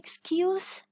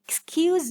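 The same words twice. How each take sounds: First: The s is said as a hissing s. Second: The s is said as a buzzing z. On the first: The word is used as a noun. "I'm saying this with the sound" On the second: The word is used as a verb. "so it will be with z sound"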